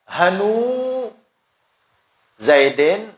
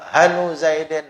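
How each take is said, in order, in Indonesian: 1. Vokal setelah 'han' panjang. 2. Vokal setelah 'han' pendek. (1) "itu itmam" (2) "itu naqas"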